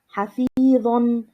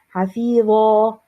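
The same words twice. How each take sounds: First: The word ends with a short vowel plus n. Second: The word ends with a long a vowel. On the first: The reader continues without stopping. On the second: The reader stops on the word.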